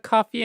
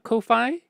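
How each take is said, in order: First: It sounds just like the word coffee. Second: It sounds unlike the word coffee. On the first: "pronounced uh, coffee" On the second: "not Ko-Fi"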